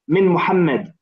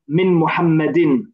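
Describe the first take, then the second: First: The name ends without its final vowel ending. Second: The name ends with its full vowel ending. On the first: This is how it is said in natural speech. "strictly speaking, when you speak in Arabic or read in Arabic, you won't pronounce the the last vowel" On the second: Every vowel is said to show the grammar is understood. "at this stage, you would say"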